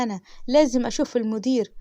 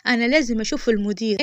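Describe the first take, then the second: First: Said in the usual way. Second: Insistent raised voice demanding the manager; retold yelling. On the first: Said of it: "يا فندم". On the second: Woman yelling at the clerk, demanding the manager, raised. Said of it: "وفضلت أزعق فيها".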